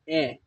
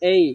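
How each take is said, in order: First: The letter is a short plain 'eh' vowel. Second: The letter glides from 'e' to 'ee'. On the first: The speaker calls it wrong. "we say A, but it is not uh, right" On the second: The speaker calls it right. "আমাদেরকে বলতে হবে এই"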